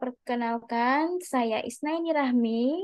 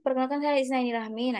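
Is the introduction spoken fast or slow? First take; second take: slow; fast. First: It is spoken at a slower pace. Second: It is spoken very fast. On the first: Listeners can easily understand the name. The speaker calls it right. "kecepatan bicaranya juga mudah dipahami" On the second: Listeners cannot catch the name. The speaker calls it wrong. "itu kan cepat banget"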